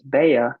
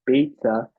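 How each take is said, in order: First: The middle consonant is a y sound. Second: The middle consonant is a ts sound. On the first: "some pronounce it as Baya" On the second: "it's really called Beitza"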